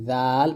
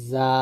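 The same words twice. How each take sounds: First: A light lisped জাল off the upper teeth; thin dhal. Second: A light buzzing জা from the lower teeth; thin za. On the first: Teacher contrasting two letters, thin dhal off upper teeth. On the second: Teacher contrasting two letters, thin za off lower teeth. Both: Shown as a demonstration. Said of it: "পাতলা করে".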